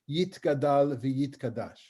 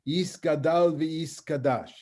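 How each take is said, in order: First: The consonant after 'Yi' is a t sound. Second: The consonant after 'Yi' is an s sound. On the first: This is the pronunciation used in modern Israel. "the way we speak Hebrew in the state of Israel"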